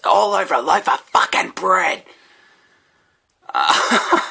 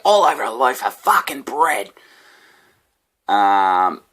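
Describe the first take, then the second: First: Put-on high, loud aggrieved drunk; homeless guy's voice. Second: High, loud aggrieved rant; homeless guy's voice. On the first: Homeless man ranting about convicts and bread, mock outrage. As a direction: ham up the indignant rant. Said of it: "he goes". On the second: Retold or imitated. Homeless man coming at me about bread, mock outrage. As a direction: replay the drunk's indignant line. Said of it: "this guy just coming at me like".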